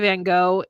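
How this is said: It is said with an American pronunciation.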